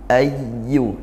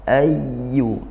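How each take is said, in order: First: The doubled y is held with flowing voice. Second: The same.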